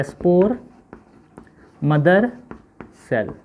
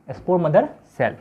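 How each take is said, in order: First: spore, mother, cell with long pauses between; one word at a time, leaving writing gaps; word-by-word dictation. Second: Said in the usual way. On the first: Shown as a demonstration. Teacher spelling out SMC for pupils, word by word.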